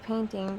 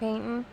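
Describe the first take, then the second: First: The word is said in careful standard pronunciation. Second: The word is said in casual local pronunciation. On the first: The speaker calls it right. "When it's painting" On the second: The speaker calls it wrong. "that's how I say it"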